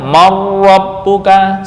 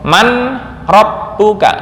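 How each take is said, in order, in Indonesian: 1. Bunyi n melebur menjadi bunyi r yang dobel. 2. Bunyi n diucapkan terpisah sebelum r.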